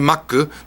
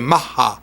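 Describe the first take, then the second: First: The second consonant is a k sound. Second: The second consonant is an h sound. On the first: The speaker calls it wrong. "They don't say Maku" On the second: The speaker calls it right. "they say Maha"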